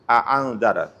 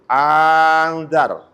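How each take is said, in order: First: A glottal stop separates the two opening vowels. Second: The opening vowel runs on without a glottal stop. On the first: "Ada dua hamzah" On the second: "Mengganti hamzah yang kedua menjadi alif"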